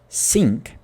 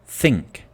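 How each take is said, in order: First: The word begins with a clear s. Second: The word begins with a th sound.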